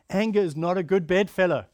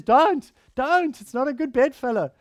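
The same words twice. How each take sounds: First: Said in the usual way. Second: Louder and higher, pleading urgency; emphatic warning. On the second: Acted. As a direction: sound the alarm on 'Don't, don't'. Quoting the Bible's warning emphatically.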